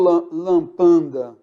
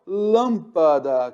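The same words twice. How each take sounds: First: "lampanda" with an extra n before the d, said slowly; wrong pronunciation. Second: "lâmpada" said slowly, with no n before the d; correct pronunciation. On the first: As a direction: mispronounce it as "lampanda". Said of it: "eu falo lâmpada". (pronúncia errada "lampanda") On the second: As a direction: say it right, "lâmpada". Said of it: "eu não falo lam-, lampanda". (pronúncia correta "lâmpada", devagar) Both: Shown as a demonstration.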